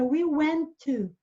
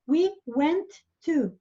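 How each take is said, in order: First: The T sound is pronounced once, linked. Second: The T sound is pronounced twice, separately. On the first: The speaker calls it right. "Pronuncia o T uma vez só e uso esse T para as duas palavras" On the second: The speaker calls it wrong. "em vez de"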